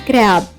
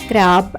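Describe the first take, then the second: Both takes have the same delivery.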